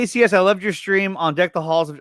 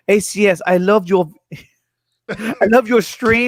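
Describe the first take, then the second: First: Said in the usual way. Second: A weak, slowed attempt at a British accent. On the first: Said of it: "I should do it in a British voice". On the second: Streamer to Fatma, reading her message in a poor British accent. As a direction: stumble into a half-hearted British accent. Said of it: "in a British voice".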